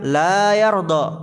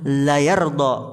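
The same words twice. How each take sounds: First: The vowel after the L is long. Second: The vowel after the L is short. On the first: God is not pleased. The speaker calls it wrong. "Kalau antum baca panjang" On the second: God is truly pleased. The speaker calls it right. "Lamnya panjang atau tidak? Tidak"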